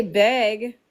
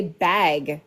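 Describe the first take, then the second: First: "bag" narrowed towards "big", drawn out; mocked pronunciation of bag. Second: "bag" with the speaker's short a; own pronunciation of bag. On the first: Co-host denies saying it that way, imitating "big" for bag. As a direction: exaggerate the wrong vowel in "bag" till it nears "big". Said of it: "I don't say big". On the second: Shown as a demonstration. Co-host shows friend how she says it, demonstrating "bag". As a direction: say "bag" carefully with her own vowel. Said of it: "I say bag".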